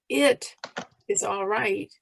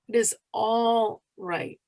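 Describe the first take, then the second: First: The stress falls on the word it. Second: The stress falls on the word all. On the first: "emphasize each word separately" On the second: "emphasize each word separately"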